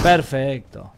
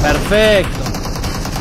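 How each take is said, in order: First: Said in the usual way. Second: Long, loud stretched "perfecto"; drawn-out cheer. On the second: Real, not acted. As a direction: stretch out "perfecto" loudly and slowly. Gleeful cheer after a kill.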